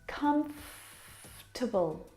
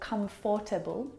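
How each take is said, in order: First: The extra middle vowel sound is skipped. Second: The extra middle vowel sound is pronounced. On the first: The speaker calls it right. "We skip that vowel sound" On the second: The speaker calls it wrong. "or comfortable"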